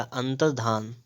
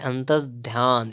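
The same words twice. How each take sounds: First: "अंतर्धान" with no y-glide, -dhaan; corrected form. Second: "अंतर्ध्यान" with a y-glide, dhyaan; misspelt form. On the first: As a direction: say "अंतर्धान" ending in plain -dhaan. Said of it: "क्या हो जाएगा?". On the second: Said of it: "तो हो जाएगा आपका अंतर्धान". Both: Shown as a demonstration.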